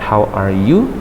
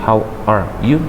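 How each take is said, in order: No difference in how they are said.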